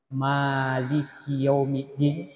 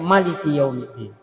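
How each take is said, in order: First: The first vowel is held long. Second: The first vowel is kept short.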